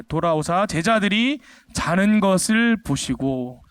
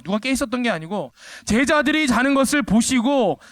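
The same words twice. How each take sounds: First: Reads the verse slowly and evenly; slow scripture reading. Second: 제자들이 hit hard and high, the rest falling; stress on 제자들이. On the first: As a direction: lay out the verse word by word. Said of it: "누가 자는 것을 봤다고 돼 있죠?". (천천히 성경 구절 낭독) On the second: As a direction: punch 제자들이 to show all slept. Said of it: "복수로 돼 있어요". (제자들이에 강세) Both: Shown as a demonstration.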